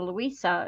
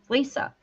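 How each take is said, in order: First: The name is said as Louisa. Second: The name is said as Lisa. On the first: The speaker calls it wrong. "so I went back to Louisa" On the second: The speaker calls it right. "I don't think that's how she says it. Lisa"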